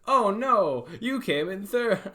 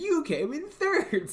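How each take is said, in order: First: Higher, louder gentle consolation; sympathetic. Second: Slow, higher and sneering; condescending. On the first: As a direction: soften the blow for a kid. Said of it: "I need to be more like". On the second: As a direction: talk down to the kid, drawn out. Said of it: "sounds so, like, condescending". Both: Shown as a demonstration.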